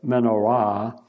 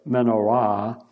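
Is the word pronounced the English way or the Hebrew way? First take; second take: Hebrew; Hebrew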